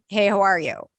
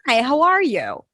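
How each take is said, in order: First: Mainly rhythm is used, with little pitch movement. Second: Rhythm and strong pitch movement are both used.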